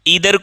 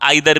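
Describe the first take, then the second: First: The first vowel sounds like 'ee'. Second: The first vowel sounds like 'eye'. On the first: "ईदर को हम आइदर भी बोलते हैं" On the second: "ध्यान रखेंगे दोनों सही है"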